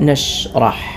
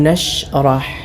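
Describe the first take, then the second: No difference in how they are said.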